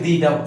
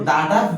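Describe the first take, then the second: First: 'The' is said with a long 'ee' vowel. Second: 'The' is said with a short 'uh' vowel. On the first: "নাকি দি ডাব বলবো" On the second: "দা ডাব বলবো"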